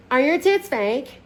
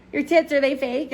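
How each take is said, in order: First: High, slow attempt at Scottish; badly faked Scottish accent, drawn out. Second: Said in the usual way. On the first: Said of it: "she has a Scottish accent". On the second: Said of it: "Nope, see, can't do it".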